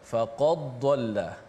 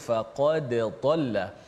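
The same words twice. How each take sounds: First: The final d blends into the following sound. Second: The final d is sounded clearly and separately. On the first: The speaker calls it wrong. "kesalahannya iaitu memasukkan dal dalam dad, uh, bunyi seakan" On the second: The speaker calls it right. "Sepatutnya kita baca dengan izhar, jelaskan dal mati itu"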